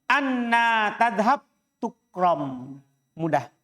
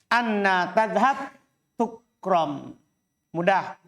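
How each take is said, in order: The two takes are said the same way.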